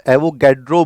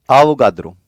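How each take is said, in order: First: "एवोगैड्रो" with flat "a" and hard "d"; "एवोगैड्रो" in anglicised sounds, retroflex d; English-style pronunciation. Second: "आवोगाद्रो" in Hindi sounds, dental d; Hindi-style pronunciation. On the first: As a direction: say "एवोगैड्रो" as ae-vo-gad-ro. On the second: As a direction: say "आवोगाद्रो" as aa-vo-gaa-dro. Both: Shown as a demonstration. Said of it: "इनका नाम एवोगैड्रो बोला जाता है".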